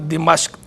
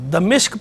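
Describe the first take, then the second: First: It has i after D and a after M. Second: It has a after D and i after M. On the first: The speaker calls it right. "मीम पे ज़बर के साथ भी ठीक है" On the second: The speaker calls it wrong. "इसको दमिश्क पढ़ना बहरहाल गलत है"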